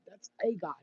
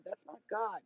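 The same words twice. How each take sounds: First: "a" said as a full, stressed "ay". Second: Said in the usual way. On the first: Real, not acted. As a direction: lean on the article "a" in "a God". Contrasts God with a god.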